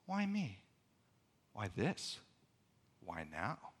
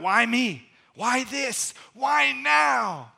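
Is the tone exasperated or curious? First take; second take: curious; exasperated. First: It sounds genuinely curious and wondering. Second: It sounds exasperated and despairing.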